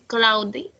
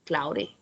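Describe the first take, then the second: First: The middle consonant is a clear D sound. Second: The middle consonant is a quick R-like flap. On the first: "you can say cloudy" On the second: "American English is like um, uh, uh, this D is like uh, R"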